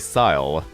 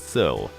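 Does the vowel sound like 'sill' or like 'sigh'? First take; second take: sigh; sill. First: The vowel sounds like the word 'sigh'. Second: The vowel sounds like the start of 'silver'. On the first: The speaker calls it wrong. "I say Syle" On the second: The speaker calls it right. "it's Syl. Like silver"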